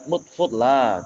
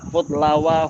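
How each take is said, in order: First: The word ends in a lengthened vowel. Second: The word ends with an added short syllable. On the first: The speaker calls it right. "begitu aja dibaca dengan mat" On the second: The speaker calls it wrong. "tak mungkin"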